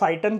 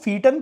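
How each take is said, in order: First: The first vowel sounds like 'eye'. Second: The first vowel sounds like 'ee'. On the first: "या फाइटन कहते हैं कई लोग इसको" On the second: "देखो फीटन क्या होता था"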